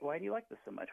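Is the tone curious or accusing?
curious. It is asked in a curious, interested tone.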